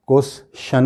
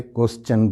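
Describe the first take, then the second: First: "क्वेश्चन" split kwes, SHUN; "क्वेश्चन" with a detached shan ending; wrong pronunciation. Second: "क्वेश्चन" as kwes-CHUN; correct pronunciation. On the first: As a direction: end "क्वेश्चन" with sh. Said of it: "नहीं बोलते". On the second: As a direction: end "क्वेश्चन" with ch. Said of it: "बोलते हैं". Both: Shown as a demonstration.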